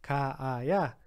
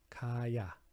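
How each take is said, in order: First: Two separate a vowels are pronounced in sequence. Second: The vowels merge into a single a sound. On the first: "ficaria ka-aya" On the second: "esse a some, né? Então fica só ka-ya"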